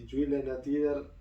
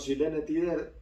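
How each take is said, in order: First: The name is said with Swedish sounds. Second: The name is said with Argentine Spanish sounds. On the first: "la sueca" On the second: "la forma más argentinizada de decirlo"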